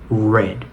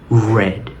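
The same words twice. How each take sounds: First: The r is made with the tongue pulled back. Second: The r is made with the tongue pulled back.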